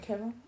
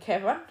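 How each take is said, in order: First: The name is called softly. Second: The name is called loudly.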